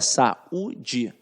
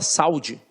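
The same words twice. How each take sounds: First: The first two vowels are kept separate. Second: The first two vowels are joined together. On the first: The speaker calls it right. "Não, ... você fala saúde... esta vogal fica isolada" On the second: The speaker calls it wrong. "você fala saúde?"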